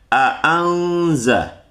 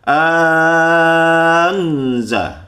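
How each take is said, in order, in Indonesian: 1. Kedua hamzah dibaca jelas dan penuh. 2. Hamzah kedua menjadi vokal yang sangat panjang. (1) "dengan jahar kedua-dua huruf hamzah tersebut" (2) "dipanjangkan hingga enam harokat"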